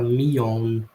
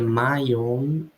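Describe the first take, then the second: First: The first word has the vowel of 'see'. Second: The first word has the vowel of 'eye'. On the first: "no sotaque dela fala me own" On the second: "a pronúncia americana ou de alguns lugares da Inglaterra seria my own"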